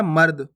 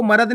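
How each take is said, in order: First: मर्द as one tight syllable, mard, with no vowel after r; correct reading. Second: मर्द stretched as ma-rad with a full extra vowel; wrong reading with full ra. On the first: Teacher giving pupils the right reading, मर्द as mard. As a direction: clip मर्द short as mard. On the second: Teacher showing pupils the wrong reading, मर्द as ma-rad. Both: Shown as a demonstration. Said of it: "आपको मर्द नहीं पढ़ना".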